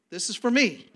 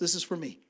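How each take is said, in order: First: It is said loudly. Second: It is said at normal, softer volume.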